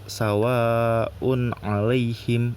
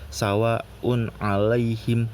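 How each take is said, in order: First: The long vowel is held for about two beats. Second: The long vowel is held for only one beat. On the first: "Jadi bukan uh, dua rokat" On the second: "atau satu rokat"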